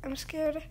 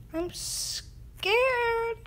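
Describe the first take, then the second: First: Quietly scared. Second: High mock-scared squeak. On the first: Pretend. Player still in the risky level, softly worried. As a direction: murmur it to yourself. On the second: Player in a risky level, high mock fright.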